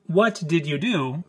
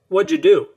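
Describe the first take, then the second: First: Each word is pronounced fully and separately. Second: The words blend quickly into a reduced form.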